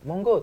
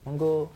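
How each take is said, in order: First: The word is said in a neutral, ordinary tone. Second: The word is said in a sad, downcast tone. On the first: A plain, ordinary invitation. The speaker calls it wrong. "bukan monggo" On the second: The speaker is a young person who feels sad. The speaker calls it right. "Anak muda yang yang bersedih"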